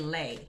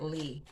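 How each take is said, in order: First: The name ends with an 'ay' vowel. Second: The name ends with an 'ee' vowel. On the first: "I think it's Danny Lay" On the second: "I'm just pronouncing it Lee"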